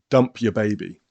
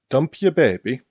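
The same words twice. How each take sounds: First: It is said with a plain English accent. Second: It is said with a Scandinavian-sounding accent. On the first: "But in English" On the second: "I think I was thinking more Scandinavian in the way I pronounced it"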